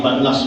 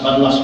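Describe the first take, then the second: The two takes are said the same way.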